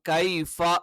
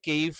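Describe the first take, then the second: First: The first syllable has an open ai sound. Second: The first syllable has a slanted ei sound. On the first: The speaker calls it right. "കൈഫ എന്ന് തന്നെ ഉച്ചരിക്കണം" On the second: The speaker calls it wrong. "കെയ്ഫ ആയി പോകരുത്"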